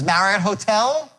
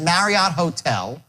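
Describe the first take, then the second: First: The voice rises at the end like a question. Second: The voice stays flat or falls at the end. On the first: The speaker calls it right. "versus Marriott Hotel" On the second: The speaker calls it wrong. "she said Marriott Hotel"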